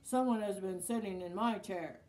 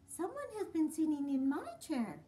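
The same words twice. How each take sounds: First: It is said in a great big voice. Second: It is said in a middle-sized voice.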